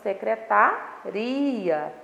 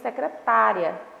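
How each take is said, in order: First: The stress falls on the syllable ri. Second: The stress falls on the syllable ta. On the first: "pronunciada com mais intensidade na sílaba ri" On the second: "pronunciada com mais intensidade na sílaba tá"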